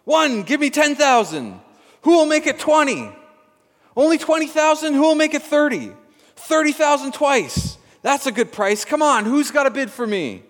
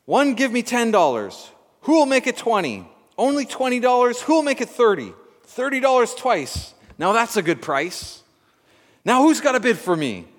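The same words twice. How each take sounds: First: Louder, higher and laughing auction calls; excited auctioneer. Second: Loud, high, fast auction calling; auctioneer voice. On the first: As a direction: whip the crowd into bidding. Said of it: "The auctioneer seized the moment and cried out". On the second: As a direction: rattle off bids like an auctioneer. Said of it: "The auctioneer cried out". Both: A narrator's reading.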